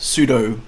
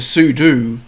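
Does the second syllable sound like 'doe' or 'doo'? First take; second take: doe; doo. First: It is said like the word pseudo. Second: The second syllable sounds like do. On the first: This is the speaker's own habitual way. The speaker calls it wrong. "I say uh" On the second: This is how most people say it. The speaker calls it right. "Sudo is how most people pronounce it, which I think is correct"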